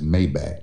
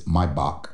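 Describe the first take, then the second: First: Maybach is pronounced in an anglicized, non-German way. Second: Maybach is pronounced the German way. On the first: The speaker calls it wrong. "he says Maybach. That's not how you pronounce that car" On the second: The speaker calls it right. "It's German. It's Maybach Music"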